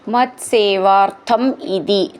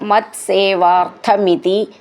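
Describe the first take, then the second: First: The two words are said separately. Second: The two words run together as one.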